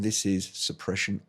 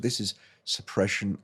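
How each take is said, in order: First: A loud background hum is heard behind the voice. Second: The background hum is removed behind the voice. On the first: "this is suppression off" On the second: "this is suppression on"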